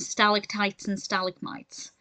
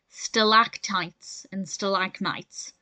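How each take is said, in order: First: The words are stressed the British way. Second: The words are stressed the American way. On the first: "in the U K, we pronounce them" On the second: "In the U S, it's"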